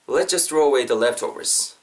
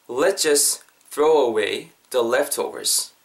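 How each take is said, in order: First: Said in the usual way. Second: Slow, phrase by phrase with pauses; slow model sentence. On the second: Shown as a demonstration. Teacher modelling the key sentence for learners, slow and chunked. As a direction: spell out the sentence slowly in separate chunks.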